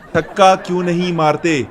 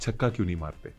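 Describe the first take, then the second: First: The question is asked in a raised, loud voice. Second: The question is asked in a lowered, quiet voice. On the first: The asker sounds demanding. The speaker calls it wrong. "फिर आपने tone ऊपर की है ना" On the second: The asker sounds intimidated. The speaker calls it right. "डर भी जाता है फौरन"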